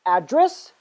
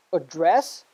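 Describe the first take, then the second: First: ADdress, stressed on the first syllable. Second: AdDRESS, stressed on the second syllable. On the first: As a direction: say "address" as the noun, punching "ad". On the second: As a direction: say "address" as the verb, weight on "dress". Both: Shown as a demonstration. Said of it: "Let's do it one more time".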